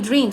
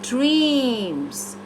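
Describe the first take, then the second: First: The word is said flat, without melody. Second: The word is said with added melody. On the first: The speaker calls it wrong. "it's not only dreams" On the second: The speaker calls it right. "I said dreams. We add music"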